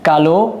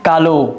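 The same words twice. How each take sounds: First: The word ends with a final vowel sound. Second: The word ends with a final vowel sound.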